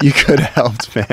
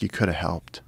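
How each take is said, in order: First: Loud, higher complaint; louder reproach. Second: Muttered reproach. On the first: Telling JJ he could have helped, said louder. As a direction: call him out, louder. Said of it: "I was like". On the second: Telling JJ he could have helped, said softly. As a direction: quietly chide him. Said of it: "and I was like". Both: Retold or imitated.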